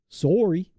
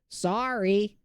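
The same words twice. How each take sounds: First: It is said with a Canadian accent. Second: It is said with a general American accent. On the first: It sounds more polite. The speaker calls it right. "like a like lumberjack out in the woods of Canada" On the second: It sounds less polite. The speaker calls it wrong. "in a distinctly, you know, uh North American accent"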